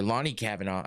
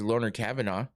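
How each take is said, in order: First: The first name ends with an 'ee' sound. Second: The first name ends with an 'er' sound. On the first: The speaker calls it right. "it's Lonnie" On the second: The speaker calls it wrong. "it's not Loner"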